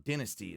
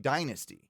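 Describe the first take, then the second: First: It is said with a British pronunciation. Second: It is said with an American pronunciation.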